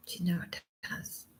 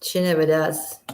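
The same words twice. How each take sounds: First: Breathy whisper of disbelief; hushed aside. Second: Said in the usual way. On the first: Shown as a demonstration. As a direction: whisper it to yourself, sadly. Repeats the line, then whispers it.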